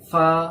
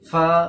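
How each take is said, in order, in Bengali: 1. প্রথম ধ্বনিটি ঠোঁট দাঁতের সঙ্গে লাগিয়ে উচ্চারিত হয়। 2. প্রথম ধ্বনিটি ঠোঁট দাঁতের সঙ্গে লাগিয়ে উচ্চারিত হয়।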